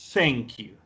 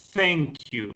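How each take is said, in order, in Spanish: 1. El primer sonido deja pasar el aire entre los dientes. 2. El primer sonido deja pasar el aire entre los dientes.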